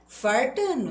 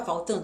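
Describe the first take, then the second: First: Playful "Fartando", an r in place of the l, pitched higher. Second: Said in the usual way. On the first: Shown as a demonstration. Teacher jokes about her own slip, "Fartando" with r for l. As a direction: hit "Fartando" louder, with r for l. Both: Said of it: "não tá faltando uma perninha".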